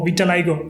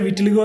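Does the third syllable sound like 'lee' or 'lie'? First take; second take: lie; lee. First: The third syllable sounds like 'lie'. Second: The third syllable sounds like 'lee'. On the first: The speaker calls it right. "വിറ്റലൈഗോ എന്നാണ് pronounce ചെയ്യുന്നത്" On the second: The speaker calls it wrong. "ചിലർ വിറ്റിലിഗോ എന്ന് പറയും"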